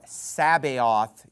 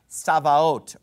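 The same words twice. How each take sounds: First: The word is pronounced in an English style. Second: The word is pronounced in a non-English style.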